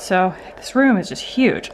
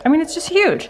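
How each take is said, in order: First: Said in the usual way. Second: Much higher, amazed emphasis on huge; excited. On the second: Real, not acted. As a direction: gush about how huge it is. Repeats phrase with more emphasis.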